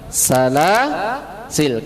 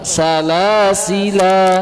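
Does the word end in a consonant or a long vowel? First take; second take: consonant; long vowel. First: The word ends on the consonant, vowel dropped. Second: The word ends with a long final vowel. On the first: "Karena ber berhenti" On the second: "kalau diadakan alifnya kan ini dibaca panjang"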